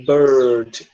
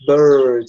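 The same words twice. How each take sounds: First: Bird with the tongue pulled back, R held hard; strong American R. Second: Bird with the tongue pulled back, R held; strong American R. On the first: Teacher modelling a strong R for the class. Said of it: "a gente pronuncia ele bem forte". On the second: Teacher asking students to try the R. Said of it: "sua língua tá sendo puxada pra trás". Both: Shown as a demonstration.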